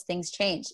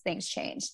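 First: Said in the usual way. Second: "things change" dropped to a near whisper; a quiet whispered repeat of "things change"; whispered echo. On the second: Real, not acted. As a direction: let "things change" fade into a breathy hush.

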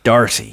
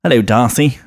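First: "Darcy" with a sounded American R; American accent. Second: Lightly camp English "Darcy", no R sounded; camp English accent. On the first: Showing co-hosts the villain's name, American accent. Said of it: "say it in an American accent". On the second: Showing co-hosts the English version, camp English accent. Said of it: "bit more camp in ... in English". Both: Shown as a demonstration.

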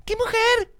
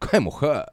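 First: Very high-pitched mock admiration; not a man's way. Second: Understated admiring catcall; man's admiring remark. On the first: Man mocking how he is not meant to say it, high-pitched. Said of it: "El hombre no le grita". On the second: Acted. Man showing how men really say it, understated admiration. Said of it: "El hombre dice".

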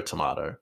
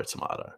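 First: "tomato" said as to-MAH-to; "tomato" with the broad ah vowel; pronouncing tomato. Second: "tomato" breathed, unvoiced and soft; whispered tomato. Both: Shown as a demonstration. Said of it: "It's tomato".

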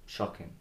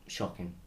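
No difference in how they are said.

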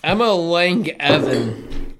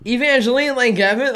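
First: "Emma Lang Evan" sounded out slowly, syllable by syllable; mangled name. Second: "Evangeline Lang Evan" tried again as a doubtful question, rising at the end; second try at name. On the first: Host reading a streamer's name off screen, slowly fumbling it. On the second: Host correcting himself on the name after his friend mocks him, questioning. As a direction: have another go at "Evangeline Lang Evan", unsure it's right. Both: Real, not acted. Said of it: "Oh, you were way the fuck off".

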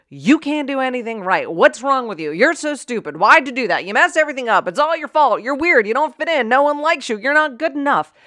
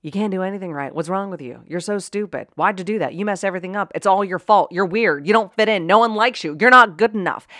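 First: Higher-pitched rapid-fire scolding; berating someone. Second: Put-on berating a kid. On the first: Acted. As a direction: rattle off insults at someone's face. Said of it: "if someone was standing in front of you saying". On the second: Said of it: "someone was saying that stuff to your kid".

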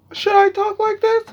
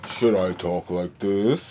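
First: Much higher, louder mock voice, trying it on; squeaky high voice test. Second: Trying a voice. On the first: Wondering how to sound, tries a high squeaky voice. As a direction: squeak it up like testing a new voice. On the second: Retold or imitated. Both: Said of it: "I used to be like".

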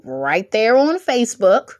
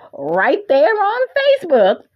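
First: Said in the usual way. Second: High, playful sing-out; comically raised pitch on the whole phrase; playful high repeat. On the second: Pretend. Playful repeat after laughing.

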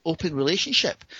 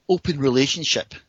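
First: Puzzled echo. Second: Imitated woman, stating it as settled fact; matter-of-fact announcement. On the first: Retold or imitated. Startled man querying her marriage arrangement, retold puzzled echo. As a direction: echo "Open relationship" back in mild disbelief. He echoes it in disbelief. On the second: Woman explaining her marriage to him, imitated matter-of-fact statement. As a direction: say "open relationship" as a simple explanation.

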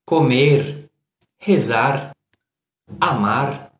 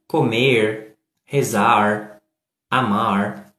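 First: Comer, rezar, amar with a light tapped R at the end; tapped final R. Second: Comer, rezar, amar drawn out slowly with a strong curled R. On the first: Contrasting light R infinitives with the rolled ones. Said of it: "se você fala". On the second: Showing the strong R closest to American English. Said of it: "o último caso vai ter muito mais facilidade". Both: Shown as a demonstration.

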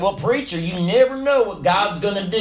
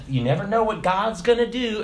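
First: Mock Southern preacher-talk accent. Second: Said in the usual way. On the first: Churchgoer to preacher, said for emphasis, southern accent. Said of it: "say it with a southern accent".

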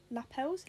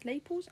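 First: "lapels" said slowly as luh-PELS; unsure pronunciation. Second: "lapels" said as LAY-puls; alternative pronunciation. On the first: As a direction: try "lapels" with a short first vowel and stressed second syllable. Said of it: "lapels, I don't know". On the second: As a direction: try "lapels" with a long AY and stressed first syllable. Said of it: "I don't know". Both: Shown as a demonstration.

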